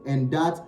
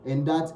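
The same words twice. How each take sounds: The two takes are said the same way.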